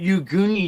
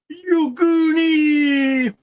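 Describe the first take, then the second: First: The word "you" is drawn out. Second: The word "Goonie" is drawn out. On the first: The speaker calls it wrong. "it's not you Goonie you" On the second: The speaker calls it right. "You gotta drag out the Goonie, not you"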